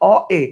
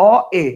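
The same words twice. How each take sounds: The two takes are said the same way.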